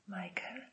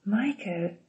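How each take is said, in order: First: Bezdźwięczny, pytający szept. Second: Okrzyk bez podnoszenia głosu; zawołaj imię, powściągliwie, z opadającą intonacją; stłumiony okrzyk. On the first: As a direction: wyszeptaj imię ledwo słyszalnie. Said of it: "szepnęła Grace". (bardzo cichy szept, jak niepewne pytanie) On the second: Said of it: "krzyknęła Grace". (lekki, narratorski okrzyk) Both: A narrator's reading.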